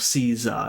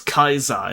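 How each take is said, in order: First: The word begins with a soft S sound. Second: The word begins with a hard K sound.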